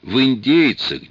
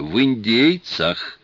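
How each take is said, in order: First: «индейцах» said slowly and firmly, higher; correcting stress. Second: «индейцах» slower still, firm falling stress; repeated correction. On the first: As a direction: insist on «индейцах», drawn out. (с нажимом на «индейцах») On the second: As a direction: press «индейцах» again, patiently. (повторное ударение на «индейцах») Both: Retold or imitated. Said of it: "кое-что понимает в своих ассирийцах".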